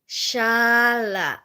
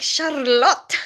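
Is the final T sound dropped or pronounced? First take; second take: dropped; pronounced. First: The name ends without any T sound. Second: The name ends with a clear T sound. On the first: This is how people say the name here. The speaker calls it right. "How how is it Shala? ... there's no T" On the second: This is how the name is said in Filipino. The speaker calls it wrong. "in Filipino, it's like Charlotte"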